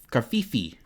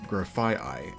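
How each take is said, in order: First: The name ends with a 'fee-fee' sound. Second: The name ends with a 'fye-eye' sound. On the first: The speaker calls it wrong. "I mispronounced it very, very badly" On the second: The speaker calls it right. "Its real name is Grafaiai"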